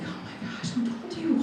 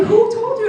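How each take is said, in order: First: Starts whispered, rises to a high squeak; acted gasp of being found out, kept soft; small, high, stunned question; hushed shock. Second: Very high, loud mock outcry; hammed-up squeal of being found out; shrieked disbelief. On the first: Reacting to mom knowing secret. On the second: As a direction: demand it in a comic high yell. Louder repeat, comic outrage.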